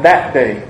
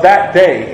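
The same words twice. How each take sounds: First: "that day" set apart, said lower and slower; stress on that day. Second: Said in the usual way. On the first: Shown as a demonstration. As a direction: underline "that day" with your voice. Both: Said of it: "you can put quotes or underline it".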